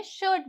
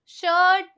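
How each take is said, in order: First: शर्ट said short, the vowel blended into the R; blended vowel sound. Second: शर्ट drawn out, read just as written in Hindi; over-literal spelling pronunciation. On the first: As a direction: say शर्ट compactly, as one mixed sound. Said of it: "शर्ट बोलेंगे". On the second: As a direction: stretch the vowel of शर्ट, too literally. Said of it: "शर्ट नहीं बोलेंगे". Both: Shown as a demonstration.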